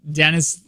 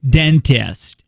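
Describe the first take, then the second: First: The middle T sound is dropped. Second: The middle T sound is clearly pronounced. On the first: The speaker calls it wrong. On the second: The speaker calls it right.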